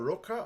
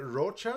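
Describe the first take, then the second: First: "Roca" said with a hard k; pronunciation variant. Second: "Rocha" said with a ch sound; pronunciation variant. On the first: Host unsure of the singer's surname, "[name]" with a k sound. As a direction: say "Roca" with a k in the middle. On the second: Host unsure of the singer's surname, "[name]" with a ch. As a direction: say "Rocha" with ch in the middle. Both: Shown as a demonstration. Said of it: "I don't actually know the pronunciation".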